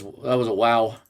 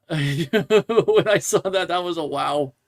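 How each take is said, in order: First: Said in the usual way. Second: Slow, laughing through the words. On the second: Real, not acted. Host laughs at a silly fan post, laughing. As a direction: chuckle your way through it.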